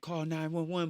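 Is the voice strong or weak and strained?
strong. It is said in a clear, normal voice.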